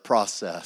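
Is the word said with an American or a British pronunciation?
American. It is said with an American English pronunciation. "I speak Texan and English"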